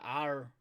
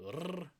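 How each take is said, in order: First: Said in the usual way. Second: R sounded as a tongue trill; rolled R. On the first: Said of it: "anytime you see a R". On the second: Shown as a demonstration. Teacher demonstrating the Māori sound, a rolled R. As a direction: roll the R rather than naming the letter. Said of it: "roll your R's".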